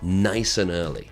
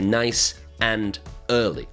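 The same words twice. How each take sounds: First: The word 'and' is reduced to a short 'n'. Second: The word 'and' is pronounced fully and clearly. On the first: The speaker calls it right. "We say un" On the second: The speaker calls it wrong. "we don't say nice and early"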